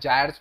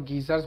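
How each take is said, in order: First: It starts with a j and a long i sound. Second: It starts with a hard g and an ee sound. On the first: "या जायर्स वगैरह भी कुछ कुछ pronounce करते हैं" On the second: "गीजर नहीं है गायर्स है"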